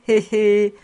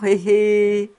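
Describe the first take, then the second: First: Chuckle. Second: Put-on toothless old woman's knowing cackle, louder; sly cackle. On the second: Old housekeeper teasing Fritz about a pretty girl, sly cackle. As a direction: cackle slyly at the young master. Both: A narrator's reading. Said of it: "Elle riait de sa bouche édentée".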